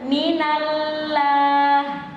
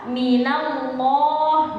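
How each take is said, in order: First: The l is pronounced light and thin. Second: The l is pronounced dark and heavy. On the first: The speaker calls it wrong. "menipiskan lam ... itu dia salah" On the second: The speaker calls it right. "lam yang harusnya dibaca dengan tebal"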